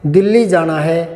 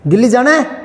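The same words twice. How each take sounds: First: It is said as a plain, flat statement. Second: It is said as a questioning sentence. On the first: Someone simply states they must go to Delhi. "पूर्णविराम लगा दो।" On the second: Someone asks whether they must go to Delhi. "प्रश्नवाचक लगा दो।"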